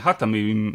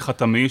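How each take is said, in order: First: The name begins with a soft h sound. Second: The name begins with a rasping kh sound. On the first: It is the name of the defense minister. "עם היי" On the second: It is the name of the former president. "שזה היה עם חט"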